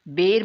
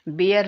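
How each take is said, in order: First: The word is said as one syllable, bare. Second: The word is said as two syllables, bi-yar. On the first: The speaker calls it right. "बेर मामा जी" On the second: The speaker calls it wrong. "दादा के उच्चारण पर जोर जोर से पेट पकड़कर हंसता हुआ बोला, बियर नहीं"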